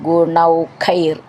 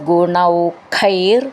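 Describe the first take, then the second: Both takes have the same delivery.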